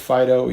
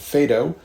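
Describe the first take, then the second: First: It sounds just like the dog name Fido. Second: It does not sound like the dog name. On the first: This is the appropriate pronunciation from the Latin. "even though it makes me think of a dog from a Tom and Jerry cartoon" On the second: This is the speaker's habitual pronunciation. "I have throughout my life mostly called this the Phaedo"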